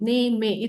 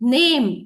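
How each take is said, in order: First: The word ends with an extra vowel sound. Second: The word ends with a consonant sound. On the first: The speaker calls it wrong. "It's not ನೇಮೆ" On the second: The speaker calls it right. "but it is name"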